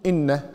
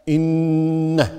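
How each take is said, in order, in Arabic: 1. النون قصيرة بلا غنة مستمرة. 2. النون مشددة ومُطوَّلة مع الغنة. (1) "ما يصير تقول إن" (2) "لا إن، لأنه ما حرفان"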